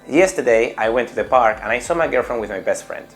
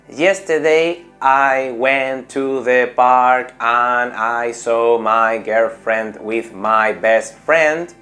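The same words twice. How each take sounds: First: The words run together in one connected flow. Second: Each word is said separately, without linking. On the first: The speaker calls it right. "Cambia esto" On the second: The speaker calls it wrong. "no tengo una buena entonación, no sueno inglés ni de broma"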